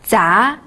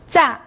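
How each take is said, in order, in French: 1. La hauteur monte du médium au haut. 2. La hauteur chute brusquement depuis le haut.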